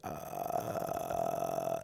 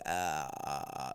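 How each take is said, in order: First: Extremely low creaky grunt, held; deeper vocal fry grunt. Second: Very low creaky grunt; deep vocal fry grunt. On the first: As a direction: sink even lower into a creaky "uh". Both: Shown as a demonstration. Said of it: "you would do that noise".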